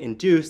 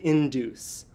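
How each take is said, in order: First: The stress falls on only one syllable. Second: Both syllables are stressed equally. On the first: The speaker calls it right. "instead of saying induce" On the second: The speaker calls it wrong. "placed stress in both syllables ... which sounds a bit off"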